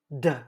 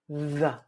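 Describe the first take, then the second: First: The word begins with a hard d sound. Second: The word begins with a soft th sound. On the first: The speaker calls it wrong. "This is d, d, and that is wrong" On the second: The speaker calls it right. "I would like you to say it like this"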